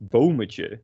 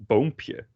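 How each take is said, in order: First: "boometje" with an extra syllable before the ending; wrong diminutive form. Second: "boompje" slowly, with p straight after the m; correct diminutive form. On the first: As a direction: sound out "boometje" in Dutch as the mistaken form. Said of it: "And you don't say". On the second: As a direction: sound out "boompje" slowly in Dutch, as the model. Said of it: "you say boompje". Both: Shown as a demonstration.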